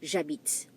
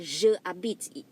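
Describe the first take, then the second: First: Je is shortened and joined onto habite. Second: Je is a full syllable before habite. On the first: The speaker calls it right. "It has to be j'habite" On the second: The speaker calls it wrong. "You cannot say je habite"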